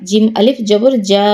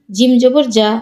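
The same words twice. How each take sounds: First: Long, sustained যা; drawn-out vowel. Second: No stretch on যা; short vowel. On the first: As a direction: hold the final যা for one alif count. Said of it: "কোথায় টান দিই". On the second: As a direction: end on a short যা. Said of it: "কোথায় দ্রুত পড়ি". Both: Shown as a demonstration.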